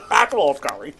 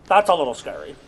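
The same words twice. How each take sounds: First: Laughing. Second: Said in the usual way. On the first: Real, not acted. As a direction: repeat it through laughter. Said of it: "said again laughing". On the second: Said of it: "plain first take".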